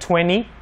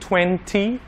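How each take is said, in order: First: It is said in an American accent. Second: It is said in a non-American accent.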